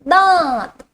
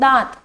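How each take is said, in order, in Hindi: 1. स्वर नासिका की ध्वनि के साथ बोला जाता है। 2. स्वर बिना नासिका की ध्वनि के बोला जाता है। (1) "मुंह के साथ साथ नाक का भी इस्तेमाल" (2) "इसके अंदर मैं चंद्र बिंदु की मात्रा ना बोलूं"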